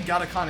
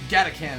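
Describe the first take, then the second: First: The last syllable sounds like 'khan'. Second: The last syllable sounds like 'can'. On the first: The name sounds Mongolian. "it makes me think like more Mongolian kind of thing, like Khan" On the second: The name sounds like a Transformer. "when you pronounce it like can"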